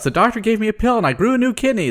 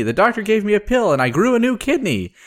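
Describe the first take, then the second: First: Put-on high, fast, gleeful old-lady cry; gleeful shout. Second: Put-on high, fast, joyful old-lady voice; gleeful shout. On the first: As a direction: shout it out with giddy joy. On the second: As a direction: call it out again, overjoyed. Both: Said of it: "She shouts".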